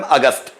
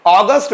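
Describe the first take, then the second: First: अगस्त said "uh-gust", short first vowel; Hindi pronunciation. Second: अगस्त said "AW-gust", long first vowel; English pronunciation. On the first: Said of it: "Hindi में बोलते हैं अगस्त". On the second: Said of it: "English pronunciation अगस्त". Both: Shown as a demonstration.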